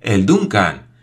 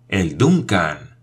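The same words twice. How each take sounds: First: Louder cry of despair. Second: Slow, stunned disbelief; stunned despair. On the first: Paganel seeing the ship's name on the wheel, despairing cry. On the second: Paganel realizing he boarded the wrong ship, slow despair. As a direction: let the name sink in slowly, dismayed. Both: A narrator's reading. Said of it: "exclamó con verdadera desesperación".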